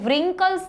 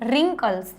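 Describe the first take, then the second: First: A W sound is pronounced at the start. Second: No W sound is pronounced at the start. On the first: The speaker calls it wrong. "આપણે વ્રિંકલ્સ નથી બોલતા" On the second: The speaker calls it right. "એટલા માટે આપણે એનું ઉચ્ચારણ કરીશું રિંકલ્સ"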